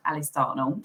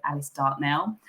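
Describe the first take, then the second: First: Casual Southern English pronunciation, amused; common Southern English accent. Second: Alice Dartnell with a clear full NELL at the end; nicer, proper pronunciation. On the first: Shown as a demonstration. Guest showing her own name, common Southern English accent. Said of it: "Southern accent". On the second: Retold or imitated. People introducing guest speaker, Alice Dartnell pronounced more properly. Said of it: "make it sound a lot nicer".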